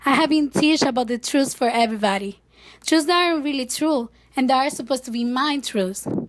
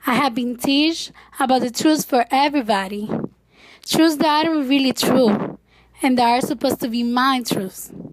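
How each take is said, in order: First: It is said at a normal pace. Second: It is said slowly.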